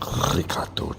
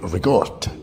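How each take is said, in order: First: Ricotta is pronounced the standard way. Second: Ricotta is pronounced the local way.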